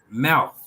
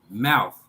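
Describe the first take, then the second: First: The final th is a voiceless sound. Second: The final th is a voiced sound. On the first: It is used as a noun. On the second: It is used as a verb.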